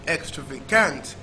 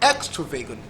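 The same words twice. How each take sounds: First: The stress is on the fourth syllable. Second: The stress is on the first syllable. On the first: "And last syllable" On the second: "First syllable"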